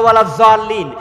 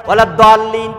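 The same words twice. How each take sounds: First: "জাল্লিন" opening on a Z sound. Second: "দাল্লিন" opening on a heavy D sound. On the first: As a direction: say "জাল্লিন" with z, not d. ("জাল্লিন" জ ধ্বনি দিয়ে উচ্চারণ) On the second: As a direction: say "দাল্লিন" with d, not z. ("দাল্লিন" দ ধ্বনি দিয়ে উচ্চারণ) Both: Shown as a demonstration. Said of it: "যেই যেভাবে ইখতিলাফ করছি".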